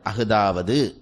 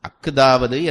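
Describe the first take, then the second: First: The middle consonant is said lightly, not doubled. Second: The middle consonant is pressed hard and doubled. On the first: The speaker calls it right. "அதை உச்சரிக்கிற பொழுது ரொம்ப அழுத்த தேவையில்லை" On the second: The speaker calls it wrong. "ரொம்ப அழுத்த தேவையில்லை"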